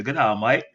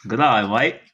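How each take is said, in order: First: Mock Australian accent, second try; playful Aussie twang. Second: Mock Australian accent; hammed-up Aussie greeting. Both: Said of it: "You wanna hear my Australian accent?".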